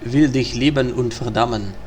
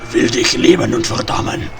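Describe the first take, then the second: First: It is said in the speaker's ordinary voice. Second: It is said in a rough, strained put-on voice.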